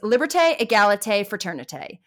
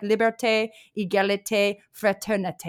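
First: It is said in a Valley girl accent. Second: It is said in an imitated French accent.

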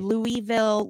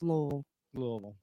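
First: The name is said fully, with every syllable clear. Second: The name is said lazily, with syllables slurred together. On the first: The speaker is from out of state. The speaker calls it wrong. "It's either Louisville" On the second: The speaker is a local. The speaker calls it right. "No, it's Louisville"

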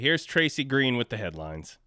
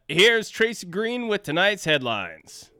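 First: It is said with low energy. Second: It is said with high energy.

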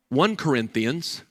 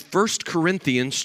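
First: The number is read as 'one'. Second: The number is read as 'first'.

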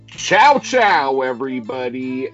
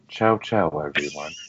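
First: It is shouted in a loud, haunting voice. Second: It is said in a calm, laid-back voice.

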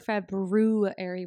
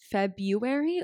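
First: The first R sound is clearly pronounced. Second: The first R sound is left out.

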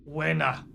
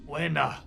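No difference in how they are said.

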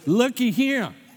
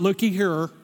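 First: It is said in a rural South Georgia accent. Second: It is said in a Minnesota accent. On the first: The speaker calls it right. "Let me say it to you from a backwoods country, Georgia, South Georgia accent" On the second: The speaker calls it wrong. "It's not "looky here," like she said"

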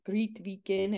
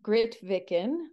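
First: The name is said with a Norwegian pronunciation. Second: The name is said with an English pronunciation.

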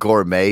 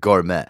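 First: Gourmet is pronounced the usual standard way. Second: Gourmet is pronounced in an odd, garbled way. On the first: This is how the word should be said. The speaker calls it right. "Instead of saying gourmet" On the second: Someone else said it this way. The speaker calls it wrong. "he said gourmet"

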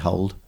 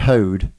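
First: The word is said the standard way, like hold. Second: The word is said the Norfolk way, like hoed. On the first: This is not how local people say it. "We don't say hold" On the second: This is how local people say it. "But we say hoed"

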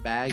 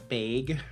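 First: Bag is said with a general American vowel. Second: Bag is said with a South Dakota vowel.

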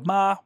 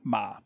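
First: The pitch stays high and level. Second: The pitch stays low in the voice. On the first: "high flat tone" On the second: "low tone"

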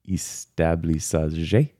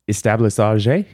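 First: The word is said slowly and drawn out. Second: The word is said at a normal, quick pace.

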